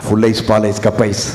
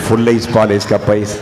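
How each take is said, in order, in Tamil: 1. ஒவ்வொரு சொல்லும் முழுமையாக, தெளிவாக உச்சரிக்கப்பட்டுள்ளது. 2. ஒவ்வொரு சொல்லும் முழுமையாக, தெளிவாக உச்சரிக்கப்பட்டுள்ளது.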